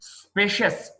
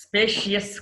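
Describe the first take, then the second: First: స్పేషియస్ in two syllables; correct pronunciation. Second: స్పేషియస్ in three syllables; wrong pronunciation. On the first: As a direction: say స్పేషియస్ as "SPAY-shus". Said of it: "స్పేషియస్ కాదు". (స్పేషియస్ "స్పే-షస్" అని) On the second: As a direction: say స్పేషియస్ as "spay-shi-yes". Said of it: "కాదు". (స్పేషియస్ "స్పే-షి-యెస్" అని తప్పుగా) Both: Shown as a demonstration.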